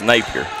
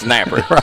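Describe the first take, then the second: First: The name is pronounced as Napier. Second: The name is pronounced as Napper. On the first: This is how people from across the river say it. "where we're from, on the other side of the river, it's Napier" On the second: This is how people here say it. "Here it's Napper"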